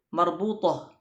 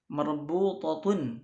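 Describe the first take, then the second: First: The word ends in -ah. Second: The word ends in -atun.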